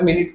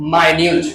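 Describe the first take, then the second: First: The word begins with a short 'min' sound. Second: The word begins with a long 'my' sound. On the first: It means a unit of time. The speaker calls it wrong. "তাহলে মিনিট তো হওয়ার প্রশ্ন ওঠে না।" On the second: It means small or brief. The speaker calls it right. "এটার pronunciation হবে মাইনিউট।"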